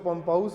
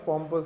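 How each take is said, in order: First: The second syllable sounds like 'pouse'. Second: The second syllable sounds like 'pus'. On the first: The speaker calls it wrong. "इसको पम्पाउस मत बोल देना" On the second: The speaker calls it right. "पॉम्पस है ये"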